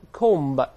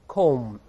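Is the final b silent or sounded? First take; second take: sounded; silent. First: The final b is sounded. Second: The final b is silent. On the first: The speaker calls it wrong. "咱们不读成comb" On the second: The speaker calls it right. "读成comb"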